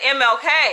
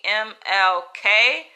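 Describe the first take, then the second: First: The three letters run together like one word. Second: The three letters are said clearly apart.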